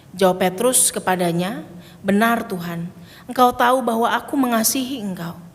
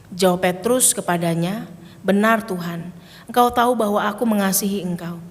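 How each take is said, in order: The two takes are said the same way.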